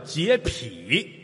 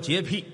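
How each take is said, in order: First: The word has its standard, formal pronunciation. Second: The word has its everyday, colloquial pronunciation. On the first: "人正字叫洁癖" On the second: "但老百姓念白了都说洁癖"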